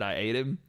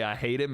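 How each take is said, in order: First: ATE in place of hate, no H; dropped H. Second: Said in the usual way. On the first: Retold or imitated. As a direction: drop the H so hate becomes "ate". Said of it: "one of it said". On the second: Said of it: "he was trying to say".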